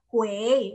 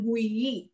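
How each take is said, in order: First: The vowel has an e sound, like gwei. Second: The vowel is a plain i, like gwee. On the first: The speaker calls it right. "dibacanya kue" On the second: The speaker calls it wrong. "bukan gui"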